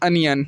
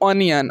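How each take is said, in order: First: The first vowel is a short 'uh' sound. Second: The first vowel is a rounded 'oh' sound. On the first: The speaker calls it right. "अनियन बोलते हैं इसको" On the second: The speaker calls it wrong. "इसको आप लोग ओनियन बोलते हैं ना, ओनियन नहीं होता"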